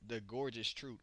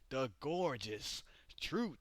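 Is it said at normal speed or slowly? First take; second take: normal speed; slowly. First: It is said at normal speed. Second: It is said slowly.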